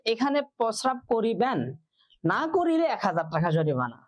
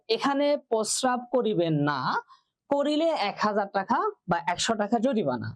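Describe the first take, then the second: First: The pause comes before the word না. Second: The pause comes after the word না.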